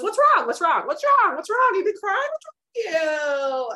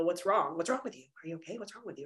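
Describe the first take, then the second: First: High, loud mock fussing; hammed-up chorus of concern, last one stretched out; pestering everybody. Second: Hushed, much softer mock questioning; people prying. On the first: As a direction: pile on the questions in a high, prying pitch. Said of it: "And then everybody goes". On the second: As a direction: quietly imitate people asking, fading away. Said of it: "people just wanna know".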